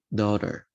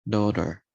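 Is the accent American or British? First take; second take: American; American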